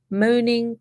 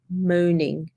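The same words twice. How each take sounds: First: Moaning said higher, pushed harder; stress on moaning. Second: Said in the usual way. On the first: Shown as a demonstration. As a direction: lean into the repeated moaning. Repeats word, second emphasised.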